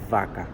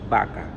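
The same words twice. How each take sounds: First: The word starts with a v sound. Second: The word starts with a b sound. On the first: "not vaca" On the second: "a lot of people pronounce it vaca"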